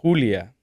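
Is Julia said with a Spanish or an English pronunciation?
Spanish. The name is said with a Spanish pronunciation. This is the name's own native form. "My mom is called Julia"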